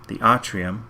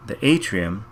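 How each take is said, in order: First: "atrium" said AH-tree-um, open first vowel, rising end; re-say "atrium" as AH-trium, not AY-trium; corrected pronunciation. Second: Said in the usual way. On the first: Shown as a demonstration.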